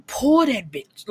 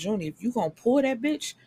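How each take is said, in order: First: "pull that bitch" slow, louder and higher, every word punched; punchy repeat. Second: Quick and higher, egging Junie on; hurried rising call to the character; fired-up advice. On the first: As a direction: hammer home "pull that bitch" slowly. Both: Real, not acted. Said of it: "this is where I get mad".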